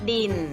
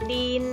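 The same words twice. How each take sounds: First: The word is said with a low tone. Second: The word is said with a level mid tone. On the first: "เสียงเอกค่ะดิน" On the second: "เสียงสามัญก็คือดิน"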